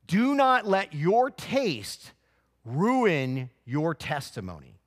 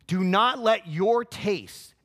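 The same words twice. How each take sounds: First: "not" hit hard, slow and high, each word weighted; stress on NOT. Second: "let" punched loud and high, slow; stress on LET. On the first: Preacher warning the congregation, slow stress on not. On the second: Preacher repeating his warning, now stressing let. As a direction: press down on the word "let". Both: Real, not acted.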